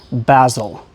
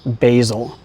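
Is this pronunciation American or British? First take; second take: British; American. First: It is said with a British pronunciation. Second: It is said with an American pronunciation. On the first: "British people say basil" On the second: "Americans say basil"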